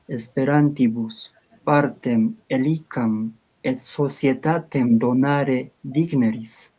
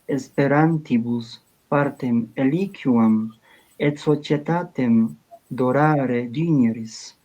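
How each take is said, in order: First: The Latin is read with common pronunciation. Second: The Latin is read with ecclesiastical pronunciation. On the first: "Ahora el común" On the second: "Latín eclesiástico"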